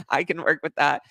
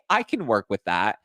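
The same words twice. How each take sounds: First: Imitated nervous chuckle, higher pitch; nervous laughter. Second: Said in the usual way. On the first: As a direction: laugh uneasily into the words, mimicking him. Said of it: "like, nervous laughter". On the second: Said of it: "saying this through, like, nervous laughter".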